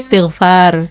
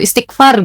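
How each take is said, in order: First: The gh sound is a soft throat sound. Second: The gh sound is said like a hard k. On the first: The speaker calls it right. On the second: The speaker calls it wrong. "jadi kayak kak gitu"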